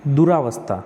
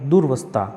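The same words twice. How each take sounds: First: दुरावस्था with a long aa after d; दुरावस्था, the wrong form; wrong spelling read out. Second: दुर्वस्था said dur-vastha with no aa; clipped dur in दुर्वस्था; दुर्वस्था, the right form; correct form. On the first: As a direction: say दुरावस्था as du-raa-vastha. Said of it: "तो दुरावस्था नहीं". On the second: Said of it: "नहीं, दुर्वस्था". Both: Shown as a demonstration.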